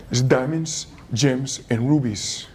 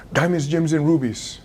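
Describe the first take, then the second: First: Low, slow, every word weighed; "diamonds, gems, and rubies" drawn out low and slow as treasure; slow emphasis. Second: Said in the usual way. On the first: Shown as a demonstration.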